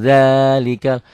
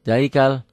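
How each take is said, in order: First: The first vowel is drawn out long. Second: The first vowel is clipped short. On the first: The speaker calls it right. "mad aslinya langsung" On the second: The speaker calls it wrong. "yang nggak biasa zalikal. Kenapa pendek?"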